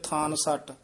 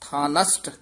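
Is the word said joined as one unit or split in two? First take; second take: split; joined. First: The word is split in two with a doubled consonant. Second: The word is said joined as one smooth unit. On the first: The speaker calls it wrong. "ਉਹ ਕਹਿੰਦੇ ਥਾਨ ਸੱਟ। ਥਾਨ ਸੱਟ ਨਹੀਂ ਕਹਿਣਾ" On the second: The speaker calls it right. "ਥਾਨਸਟ ਇੱਥੇ ਯਮਕ ਲਾ ਦੇਣੀ ਹੈ"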